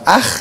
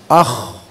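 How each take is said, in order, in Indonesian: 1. Bunyinya tipis, bibirnya melebar. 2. Bunyinya tebal, mulutnya membulat. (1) "bukan ah, bukan meringis" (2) "Tebal pengucapan"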